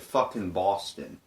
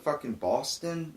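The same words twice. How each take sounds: First: It sounds rude and hostile. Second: It sounds tentative and unsure. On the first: The person is being rude to the officer. The speaker calls it wrong. "it sounds like an asshole type thing" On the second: The person is just trying to answer the question. The speaker calls it right. "I said it like this"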